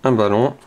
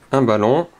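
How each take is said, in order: Both takes have the same delivery.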